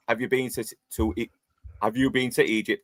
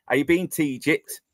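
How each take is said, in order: First: Said in the usual way. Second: Broad Yorkshire accent, "been to" run together; clipped-together Yorkshire dialect on "been to Egypt". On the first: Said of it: "instead of saying". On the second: Shown as a demonstration. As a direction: show how Yorkshire locals squash "been to Egypt". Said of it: "They say".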